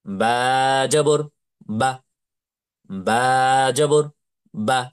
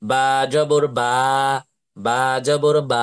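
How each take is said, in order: First: First "বা" long, final "বা" cut short; short final vowel. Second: Final "বা" dragged as long as the first; wrongly stretched vowel. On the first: Teacher showing the correct spelling-out, final "বা" short. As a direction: stretch only the letter name, clip the last "বা". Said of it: "কিভাবে বলতে হবে?". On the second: Teacher showing the mistake, final "বা" held long. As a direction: stretch both "বা" in "বা জবর বা". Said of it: "নাকি এভাবে বলবো?". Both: Shown as a demonstration.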